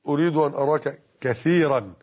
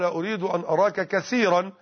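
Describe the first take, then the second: First: The middle consonant is a th sound. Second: The middle consonant is an s sound. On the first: "بإخراج اللسان في الثاء" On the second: "فنطقها باللهجة العامية"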